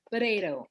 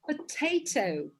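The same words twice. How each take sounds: First: It is said in an American accent. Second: It is said in a British accent.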